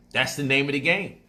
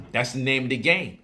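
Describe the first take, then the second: No difference in how they are said.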